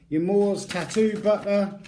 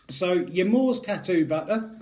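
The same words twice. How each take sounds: First: Hammed-up Scottish ad voice, a little higher and louder; bad Scottish accent. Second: Put-on Scottish accent. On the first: Vlogger reading the product slogan aloud, in a bad Scottish accent. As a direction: sell the tattoo butter in a mock Scottish accent. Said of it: "the world's worst Scottish accents". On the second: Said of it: "I keep breaking into Scottish accent".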